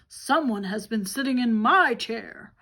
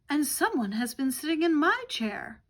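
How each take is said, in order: First: It is said in a great big voice. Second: It is said in a medium-sized voice.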